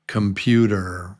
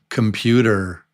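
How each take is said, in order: First: The first vowel is reduced to a schwa. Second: The same.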